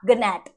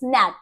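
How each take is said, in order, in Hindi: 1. शब्द उच्चारित g से शुरू होता है। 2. शब्द n से शुरू होता है, g साइलेंट है। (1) "नॉट गनैट" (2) "इट्स नैट"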